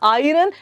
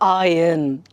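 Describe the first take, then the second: First: The R sound is pronounced in the word. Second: The R sound is silent in the word. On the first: The speaker calls it wrong. "It's not iron" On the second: The speaker calls it right. "R is silent there"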